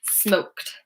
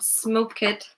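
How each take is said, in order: First: The ending is a single 't' sound. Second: The ending is an extra syllable, 'id'. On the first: The speaker calls it right. "just one syllable" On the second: The speaker calls it wrong. "So not smoke it"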